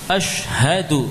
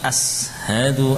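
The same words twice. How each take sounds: First: The sh and h sounds are crisply articulated. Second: The sh and h sounds are blurred together. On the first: The speaker calls it right. "Shin harus shin. Ha harus ha" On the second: The speaker calls it wrong. "Jangan dibaca"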